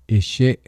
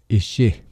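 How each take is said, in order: No difference in how they are said.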